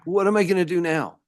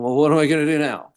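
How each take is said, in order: First: It sounds like a genuinely curious, open question. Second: It sounds like a hopeless statement, not asking.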